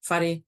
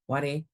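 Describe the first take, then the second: First: The h sound at the start is pronounced. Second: The h sound at the start is dropped. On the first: It follows the speaker's own dialect. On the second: It follows the Taranaki or Whanganui dialect.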